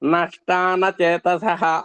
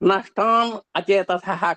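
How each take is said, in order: First: The words are run together into one. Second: The words are said as separate words.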